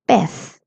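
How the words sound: The word ends with a soft th sound. This is how it is said in Spain. "a person from Spain would be saying the word pez as pez"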